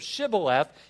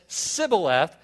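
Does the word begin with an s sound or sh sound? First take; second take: sh sound; s sound. First: The word begins with a sh sound. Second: The word begins with an s sound. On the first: The speaker is from Gilead. The speaker calls it right. "instead of Shibboleth" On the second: The speaker is an Ephraimite. The speaker calls it wrong. "they couldn't pronounce the H"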